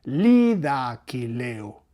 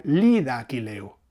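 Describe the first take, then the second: First: Lida Aquileo, slow, each accent hit, lí and lé; stress on lida Aquileo. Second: Lida Aquileo, stressed on the first syllable of lida and on the ending -leo. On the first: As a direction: spell out the rhythm of Lida Aquileo slowly. («Lida Aquileo», lento, marcando lí y lé) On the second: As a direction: mark the accent on lí-da and on A-qui-lé-o. («lida Aquileo» con acento en lí y en lé) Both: Shown as a demonstration. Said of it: "El esquema acentual que os comento".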